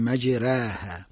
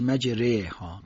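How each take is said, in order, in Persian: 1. مصوت بعد از r یک 'a' سبک و نازک است. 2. مصوت بعد از r به سمت صدای 'e' گرایش دارد. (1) "اماله صغراش اینه که ما تفخیمش رو ازش بگیریم" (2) "باز میلش میدیم به سمت کسره میشه مجره ها"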